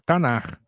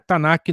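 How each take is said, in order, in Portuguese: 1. A palavra termina com um r gutural. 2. A palavra termina com um k forte. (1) "então o som de R" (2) "não é Tanak não"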